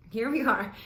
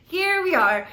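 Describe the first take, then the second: First: Said in the usual way. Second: Louder and higher "Here we are"; resigned here we are. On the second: Retold or imitated. Narrator resigning herself to drinking, louder. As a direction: throw up hands, might as well.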